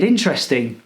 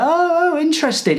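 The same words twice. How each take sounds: First: Deadpan sarcastic interesting; flat sarcasm. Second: Mock-excited, much higher, oh interesting; hammed-up sarcastic interest; fake interest. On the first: Retold or imitated. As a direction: let interesting fall dead. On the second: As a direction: put on big fake fascination.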